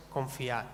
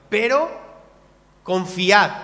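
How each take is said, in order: First: Confiad said low and soft, falling away. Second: Calling out the word confiad loud and ringing; loud call to trust. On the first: Preacher closing the point to the church, softly. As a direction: breathe out confiad gently. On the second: Preacher quoting Jesus to the church, calling out loud. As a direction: proclaim confiad at full voice. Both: Acted.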